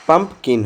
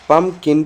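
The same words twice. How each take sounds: First: पम्पकिन with the p sounded before kin; correct pronunciation. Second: पम्पकिन said as the rejected form; wrong pronunciation. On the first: Teacher correcting pupils on the word, पम्पकिन said as pump-kin. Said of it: "होता है". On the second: Teacher showing pupils the wrong form of पम्पकिन, mispronounced. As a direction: say पम्पकिन as the mistaken version. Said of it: "नहीं होता है". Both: Shown as a demonstration.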